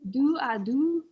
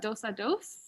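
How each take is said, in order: First: The final s sounds are silent. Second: The final s sounds are pronounced. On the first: The speaker calls it right. "I sound very French, right?" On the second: The speaker calls it wrong. "kind of more like a Spanish sort of version"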